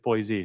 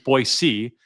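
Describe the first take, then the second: First: The middle consonant is a buzzing z sound. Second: The middle consonant is a soft s sound. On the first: The speaker calls it wrong. "not the often misstated Boise" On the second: The speaker calls it right. "there is no Z in our name. The correct cor- correct pronunciation is Boise"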